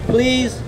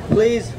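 Both takes have the same delivery.

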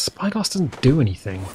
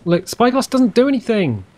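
First: Said in the usual way. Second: "do" punched higher in exasperation; stressed complaint. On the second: Shown as a demonstration. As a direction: lean hard on "do", pitch up, falling.

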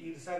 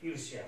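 First: ईर्षा without a "y"; wrong form. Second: ईर्ष्या with a "y" glide; softer ईर्ष्या, ending in "shyaa"; corrected form. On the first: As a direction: say ईर्षा as eer-saa. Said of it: "गलत लिखा हुआ है". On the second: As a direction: say ईर्ष्या as eersh-yaa. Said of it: "इस प्रकार से लिखा जाएगा". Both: Shown as a demonstration.

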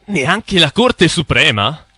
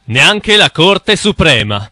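First: Slow, rising disbelief; incredulous question. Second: Said in the usual way. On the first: Acted. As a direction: echo it back in disbelief. Incredulous echo of the claim.

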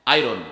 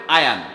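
First: আয়রন said as eye-ron, with a clear r; wrong pronunciation. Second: আয়ান said as ah-yan, no r sound; correct pronunciation. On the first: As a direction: say আয়রন with a plain r sound. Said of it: "এটি ভুল উচ্চারণ". (ভুল উচ্চারণ আয়রন, র সহ) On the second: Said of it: "উচ্চারণটা হবে আয়ান". (আয়ান উচ্চারণ, র ছাড়া) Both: Shown as a demonstration.

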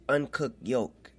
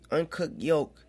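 No difference in how they are said.

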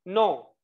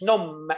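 First: نو said slowly with the lips closing but no m sound; nasal vowel, no m. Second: نوم said with the final m fully voiced; wrong take with m. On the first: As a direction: say نو without voicing the final m. (نو بدون نطق الميم) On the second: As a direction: show the wrong way, sounding the m. (نوم بنطق الميم غلط) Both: Shown as a demonstration. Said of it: "ما قلتش نوم".

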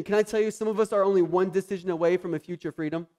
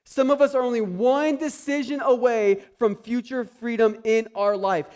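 First: Said in the usual way. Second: Higher and louder, stretched out; preaching emphasis. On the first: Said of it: "repeated louder". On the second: Shown as a demonstration. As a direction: proclaim it so it lands. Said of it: "repeat of line".

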